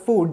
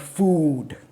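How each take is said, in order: First: The word is said very quickly. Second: The word is said slowly and drawn out.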